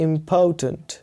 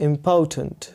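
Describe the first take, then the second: The two takes are said the same way.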